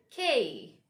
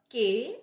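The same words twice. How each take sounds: First: K with a strong puff of air, falling; firm aspirated K; correct K. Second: K without the puff of air, like "gay"; mispronounced K. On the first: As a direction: say K crisply aspirated and drawn out. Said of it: "it's K". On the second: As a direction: say K unaspirated, as a wrong example. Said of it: "It's not K". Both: Shown as a demonstration.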